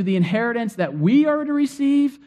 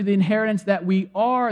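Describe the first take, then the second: First: "we" picked out, pitched up; stress on we. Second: "are" picked out at the end; stress on are. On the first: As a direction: lean on "we" as the ones receiving. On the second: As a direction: lean on "are", as in being the inheritance. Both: Shown as a demonstration. Contrasting two readings of inheritance.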